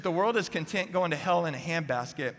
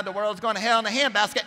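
First: Said in the usual way. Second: Mock alarmist churchgoer, pitched high; finger-wagging scold. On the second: Pew-sitters scolding the world, mock finger-wagging outrage. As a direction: wag your finger in a high, put-on lament. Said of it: "wag their finger at the world going".

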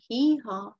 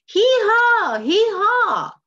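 First: Said in the usual way. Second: High, loud, drawn-out donkey bray; really making noise. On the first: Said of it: "noise that's kind of soft". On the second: Shown as a demonstration. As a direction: blare the hee-haw like a distressed donkey. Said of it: "now he's really making noise".

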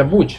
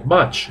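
First: "much" said as Spanish "mooch"; mispronounced with U. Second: "much" said as "match", open a; pronounced with A. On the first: Teacher shows the mistake, "much" as "mooch". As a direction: read "much" with an oo vowel. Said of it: "no se pronuncia much". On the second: Teacher shows the correct sound, "much" with an a. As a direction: give "much" an a vowel. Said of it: "se pronuncia con A". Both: Shown as a demonstration.

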